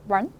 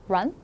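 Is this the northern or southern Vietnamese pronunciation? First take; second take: southern; southern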